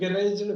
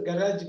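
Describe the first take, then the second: First: It is said in a British accent, like 'GA-rej'. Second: It is said in an American accent, like 'ga-RAJ'. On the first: "இந்தியாலயும் யூகேலயும் கரேஜ்" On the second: "கராஜ் பாங்க யூஎஸ்ல"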